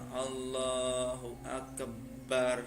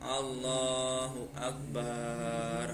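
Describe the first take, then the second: First: The b sound in Akbar is held doubled. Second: The vowel after the b is drawn out long. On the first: "tidak boleh mentasydid lafadz baknya" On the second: "Kalau dipanjangkan contohnya"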